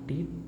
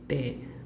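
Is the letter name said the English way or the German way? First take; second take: English; German. First: The letter is said as in English. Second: The letter is said as in German. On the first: The speaker calls it wrong. "not T" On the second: The speaker calls it right. "in German the letter T becomes T"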